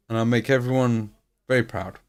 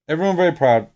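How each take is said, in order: First: Said in the usual way. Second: Louder and higher, proud; grand declaration. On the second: Shown as a demonstration. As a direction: announce it to the world. Repeats the line, then bigger.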